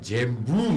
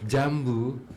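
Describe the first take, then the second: First: The first vowel is an 'e' sound. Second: The first vowel is an open 'a' sound. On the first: This is how the word is said in that regional dialect. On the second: This is the standard way of saying it.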